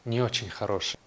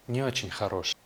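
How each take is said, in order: Both takes have the same delivery.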